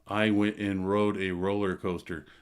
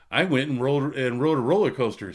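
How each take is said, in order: First: It sounds flat and bored. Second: It sounds lively and excited.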